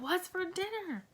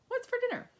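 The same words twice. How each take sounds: First: The voice sounds angry and harsh. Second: The voice sounds curious and inquisitive. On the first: "Maybe I'm angry" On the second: "I'm trying to be curious"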